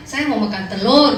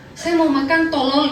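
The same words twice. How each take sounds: First: Said in the usual way. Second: Tolol instead of telur, slow; wrong pronunciation. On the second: Retold or imitated. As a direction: say tolol with a Taiwanese boss's accent. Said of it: "nadanya nggak enak". (ucapkan "tolol" pelan seperti bos Taiwan)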